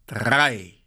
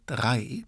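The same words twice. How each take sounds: First: Drawn-out final count; called-out command. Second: Said in the usual way. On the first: A narrator's reading. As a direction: call it as the signal to start. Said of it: "so laut er konnte". (gedehnt gerufen)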